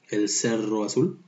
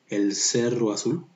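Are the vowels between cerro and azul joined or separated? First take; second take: joined; joined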